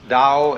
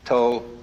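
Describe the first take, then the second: First: It is pronounced in Mandarin. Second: It is pronounced in Cantonese.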